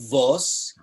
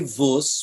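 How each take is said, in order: First: It is said with a Litvak vowel, "vos". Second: It is said with a Galician vowel, "vus".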